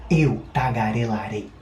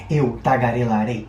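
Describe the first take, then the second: First: Spoken at a moderate, somewhat quicker pace. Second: Spoken quickly with a brisk pace. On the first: "Um pouco mais rápido agora" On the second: "Mais rápido então"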